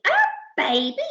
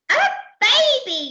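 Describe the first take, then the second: First: Rising, questioning echo; incredulous yell. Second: High, loud falling exclamation; yelled. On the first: Crew echoing Percy's news, incredulous question. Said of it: "yelled the crew". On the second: Percy announcing it to the crew, high yell. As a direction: shout it out at the top of the voice. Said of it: "yelled Percy". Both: Acted.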